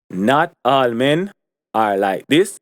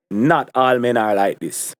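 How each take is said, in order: First: Not all men said slowly, each word weighted; emphatic repeat of "not all men are like this"; slow emphasis. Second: Said in the usual way. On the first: Real, not acted. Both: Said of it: "let me emphasize again".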